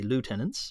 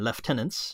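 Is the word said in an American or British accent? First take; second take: American; British. First: It is said with an American pronunciation. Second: It is said with an English pronunciation.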